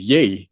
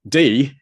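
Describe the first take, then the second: First: The name begins with a Y sound. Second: The name begins with a D sound. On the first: This is the original Vietnamese pronunciation. The speaker calls it right. "in Vietnamese, my name is Yi" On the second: This is the anglicized English pronunciation. The speaker calls it wrong. "not D"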